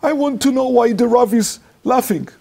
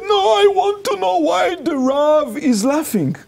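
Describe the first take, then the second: First: High-pitched insistent demand. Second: Escalated demand. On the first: Crying girl asking why the rabbi laughs, high insistent demand. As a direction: imitate an upset, confused questioner. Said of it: "started to ask". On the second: Crying girl demanding an answer from rabbi, very high insistent wail. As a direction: imitate someone upset refusing to back down. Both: Retold or imitated.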